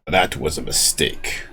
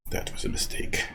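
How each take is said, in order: First: Said in the usual way. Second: Breathy whispered aside; hushed repeat of the line. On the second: Real, not acted. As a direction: whisper it to yourself.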